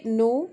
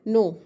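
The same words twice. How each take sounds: First: It is said in a neutral tone. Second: It is said in an angry tone.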